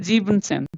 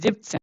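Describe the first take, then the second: First: The full word sieben is kept before zehn. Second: The en of sieben is dropped before zehn. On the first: The speaker calls it wrong. "we don't say Jeevansen" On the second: The speaker calls it right. "We say Jibsen"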